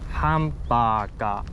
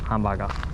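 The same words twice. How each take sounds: First: The long vowels are held for two beats. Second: The vowels are clipped short, one beat each. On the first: The speaker calls it right. "you have to pronounce it with those two moras" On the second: The speaker calls it wrong. "not hamburger"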